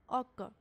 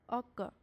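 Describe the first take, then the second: No difference in how they are said.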